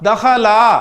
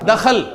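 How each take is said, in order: First: The word ends with a short vowel. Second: The word ends on a bare consonant.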